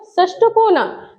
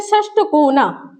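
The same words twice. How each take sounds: First: षष्ठ कोना said slowly, every sound clear; slow careful pronunciation. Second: Said in the usual way. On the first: Shown as a demonstration. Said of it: "जैसे कहते हैं षष्ठ कोना". (षष्ठ कोना धीरे और साफ़ बोलें)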